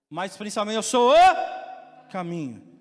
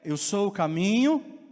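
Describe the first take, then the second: First: O caminho slow and loud with a fall; stress on o. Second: Caminho stretched slow with a rise; stress on caminho. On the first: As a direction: hit o in o caminho, slow and falling. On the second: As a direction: lean into caminho, slow and rising. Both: Shown as a demonstration.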